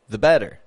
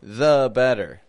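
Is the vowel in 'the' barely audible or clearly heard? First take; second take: barely audible; clearly heard. First: The schwa in 'the' is quick and barely audible. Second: The schwa in 'the' is clearly pronounced. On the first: "You can hardly even hear that schwa is there" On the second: "let's put the schwa there"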